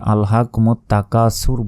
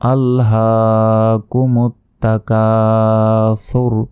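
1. "ha" ও "ka" এর পরের স্বরধ্বনি হ্রস্ব। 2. "ha" ও "ka" এর পরের স্বরধ্বনি টানা। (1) "অনেকে ভুল পড়ি এইভাবে যে আলহাকুম তাকাসুর বলি, এটা ভুল" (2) "হাতে এক সেকেন্ড টেনে পড়বেন, কাতে এক সেকেন্ড টেনে পড়তে হবে"

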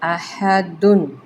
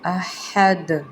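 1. یہ لفظ -dun پر ختم ہوتا ہے، n کے ساتھ۔ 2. یہ لفظ خالص d آواز پر ختم ہوتا ہے۔

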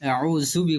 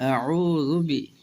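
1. মাঝের বর্ণটি সাধারণ 'z' ধ্বনি। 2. মাঝের বর্ণটি নরম 'dh' ধ্বনি। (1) "আউজুবি বললে ভুল হবে" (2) "জাল আছে"

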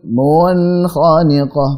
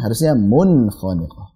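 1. Vokal sebelum huruf n dipanjangkan. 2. Vokal sebelum huruf n tetap dibaca pendek. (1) "misalkan ada orang baca"

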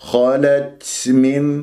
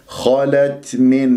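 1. في التاء همس مبالغ فيه. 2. في التاء همس خفيف لطيف فقط. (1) "أو تبالغ في الهمس" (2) "وأهمسها همسا لطيفا"

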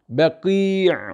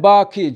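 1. Kelime boğaz ünsüzüyle bitiyor. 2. Kelime düz bir ünlü sesiyle bitiyor. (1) "aslı orijinali budur" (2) "Bu yani yanlış bir telaffuzdur"

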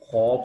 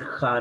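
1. स्वर भारी और गोल है, 'khau' की तरह। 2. स्वर हल्का और पतला है, 'kha' की तरह। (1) "खौ मोटा पढ़ेंगे" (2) "खा नहीं पढ़ेंगे, खा गलत है"

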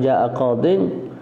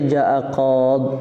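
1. Kata terakhir berakhir dengan -in. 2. Kata terakhir berakhir dengan konsonan mati. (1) "Yang bertanwin fi raf'i wal jar" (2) "Buang ya"

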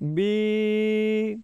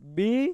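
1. مصوتہ لمبا ہے اور کھینچا جاتا ہے۔ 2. مصوتہ چھوٹا ہے اور کھینچا نہیں جاتا۔

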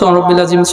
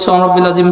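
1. এটা তাড়াহুড়ো করে বলা হয়, মাঝের অক্ষরগুলো গিলে ফেলা হয়। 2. এটা তাড়াহুড়ো করে বলা হয়, মাঝের অক্ষরগুলো গিলে ফেলা হয়।

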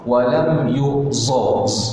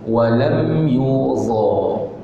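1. Konsonan itu bunyi z yang mendesis. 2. Konsonan itu tebal, dibuat di antara gigi. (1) "Biasa kita dengar orang sebut za" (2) "Di antara dua gigi, tetapi bunyinya ditebalkan"

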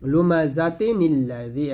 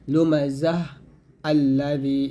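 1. শব্দ দুটো একসাথে, মাঝে n ধ্বনি দিয়ে যুক্ত। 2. প্রথম শব্দটি h দিয়ে শেষ হয়ে থেমে যায়। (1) "একসাথে বললে" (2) "অক্ষ ধরলে"

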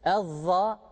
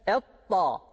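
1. Ünsüz peltek z benzeri bir sestir. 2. Ünsüz vurgulu t gibi duyulur. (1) "Ezza dersek yanlış olur" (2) "Etta dersek bu ta harfine"

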